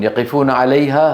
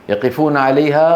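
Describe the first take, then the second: Both takes have the same delivery.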